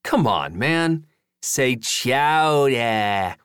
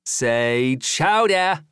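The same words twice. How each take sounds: First: Put-on very slow drawn-out New England accent. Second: Put-on slow stretched New England accent. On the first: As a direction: stretch chowder in a hammy New England accent. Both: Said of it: "practicing his New England accent".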